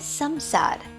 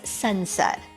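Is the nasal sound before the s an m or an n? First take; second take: m; n. First: The nasal before the s sounds like m. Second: The nasal before the s sounds like n. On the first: Western speakers say it this way. "they pronounce it as samsar" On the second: Indian speakers say it this way. "we Indians, we pronounce this as sansar"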